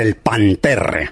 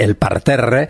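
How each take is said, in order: First: The word is said with an n sound. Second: The word is said with an r sound. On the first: This is the broad local way of saying it. The speaker calls it wrong. "Los más carabancheleros del todo decían" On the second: This is the standard way of saying it. The speaker calls it right. "Dicho correctamente"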